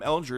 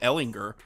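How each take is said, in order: First: The g is soft, like a j sound. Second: The g is hard, as in go. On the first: This is how the speaker has always said it. "I've been calling him Ellinger his career" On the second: This is how other people are now saying it. "Now I'm hearing people call him Sam Ellinger"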